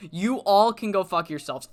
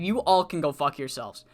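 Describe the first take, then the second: First: Said in the usual way. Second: Low contemptuous dismissal. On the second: Retold or imitated. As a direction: say it low in the throat with scorn, first time. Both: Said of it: "and he said".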